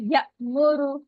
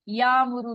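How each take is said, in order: First: It has a slight catch after 'ya'. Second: It flows smoothly with no catch after 'ya'. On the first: The speaker calls it right. "थोड़ा हल्का सा झटका हमने दिया" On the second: The speaker calls it wrong. "या मुरु नहीं पढ़ेंगे"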